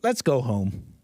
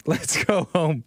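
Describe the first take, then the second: First: Mock-tender let's go home; a gentle pretend plea; sarcastic. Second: Slow, laughing mock plea; sarcastic. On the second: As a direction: drag out let's go home with a laugh. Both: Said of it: "I'm being ridiculously sarcastic".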